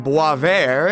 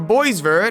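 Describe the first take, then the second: First: The name is said with its native pronunciation. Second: The name is read literally as it is spelled. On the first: The speaker calls it right. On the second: The speaker calls it wrong.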